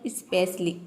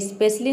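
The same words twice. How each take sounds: First: The word starts with an 'e' vowel sound. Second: The word starts directly with the 's' sound. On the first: The speaker calls it right. "ये होता है स्पेशली, ई का sound आएगा" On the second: The speaker calls it wrong. "ये स्पेशली नहीं होता है"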